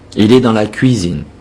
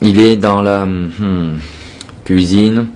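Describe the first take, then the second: First: It flows slowly and smoothly without any hesitation. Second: It is broken up by hesitations and filler sounds. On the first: The speaker calls it right. "Faites lentement les phrases, mais jolies" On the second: The speaker calls it wrong. "Ne pas faire ça"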